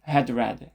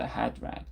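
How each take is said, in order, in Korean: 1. d 뒤에 모음 소리가 하나 더 붙어요. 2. d는 모음을 붙이지 않고 가볍게 터뜨려요. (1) "had read 하면 이제 으, 좀, 좀 투박하게 들릴 거예요" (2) "이렇게 가볍게만 터뜨리고 넘어가 주셔야 돼요"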